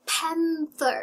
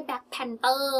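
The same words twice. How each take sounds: First: PANTHER with tongue-out TH in the middle; English TH in panther. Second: PANTHER as "pan-TER", T replacing TH, last vowel drawn out; Thai-style T in Panther. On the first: Teacher models the TH for learners, clearly pronounced. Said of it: "จะมีตัว ทีเอช ด้วย". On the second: Teacher shows what to avoid, Thai-accented pan-ter. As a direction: say "Panther" with a T, stretching the ending. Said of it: "ไม่ใช่". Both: Shown as a demonstration.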